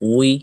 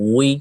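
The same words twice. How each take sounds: The two takes are said the same way.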